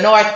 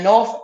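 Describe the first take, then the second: First: The word ends with a th sound. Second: The word ends with an f sound. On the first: The speaker calls it wrong. "I shouldn't pronounce a th" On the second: The speaker calls it right. "I should say north with the F, N A W F"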